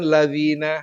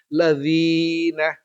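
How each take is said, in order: First: The vowel after dz is kept short. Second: The vowel after dz is held for two beats. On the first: The speaker calls it wrong. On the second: The speaker calls it right. "dipanjangkan dua ketukan"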